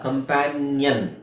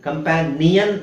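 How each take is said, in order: First: The ending is said as nyan. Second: The ending is said as nee-yan. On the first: The speaker calls it right. "ನ್ಯನ್" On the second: The speaker calls it wrong. "ಕಂಪ್ಯಾನಿಯನ್ ಅಲ್ಲ"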